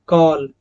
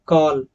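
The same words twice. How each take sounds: The two takes are said the same way.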